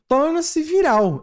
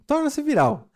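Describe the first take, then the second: First: High, slow scornful read; "Torna-se viral" drawn out with disdain; disdainful. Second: Disdainful. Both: Retold or imitated. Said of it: "Ele falou com desdenhos aqui".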